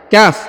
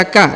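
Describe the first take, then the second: First: "Kaf" pronounced with a closing f; full letter name. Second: "ka" with the final f dropped; incomplete letter name. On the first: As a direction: close "Kaf" firmly on the f sound. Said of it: "huruf kaf dibaca kaf". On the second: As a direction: say "ka" open-ended, without any f. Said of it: "Jangan dibaca ka". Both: Shown as a demonstration.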